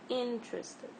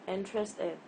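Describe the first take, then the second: First: The stress is on the first syllable. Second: The stress is on the last syllable. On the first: The speaker calls it right. "The correct pronunciation is interested" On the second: The speaker calls it wrong. "This is also not right"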